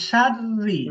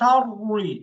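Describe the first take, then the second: First: The r is thin, with lips spread. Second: The r is heavy, with lips rounded. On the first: The speaker calls it right. "ঠোঁটগুলো একটু পাশ কাটতেছে" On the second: The speaker calls it wrong. "ঠোঁটগুলো গোল হচ্ছে"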